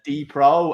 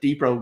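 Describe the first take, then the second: First: It is said as two parts, like 'the pro'. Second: It is said run together as one word. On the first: "as in like the pro" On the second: "or is it like Depro guns?"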